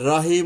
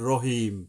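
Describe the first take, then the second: First: The r is light with a clear open vowel. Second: The r is heavy with a dark vowel. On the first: The speaker calls it wrong. "এই যে রাহিম অনেকে বলে ভুল" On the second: The speaker calls it right. "রটাকে একটু মোটাভাবে বললাম"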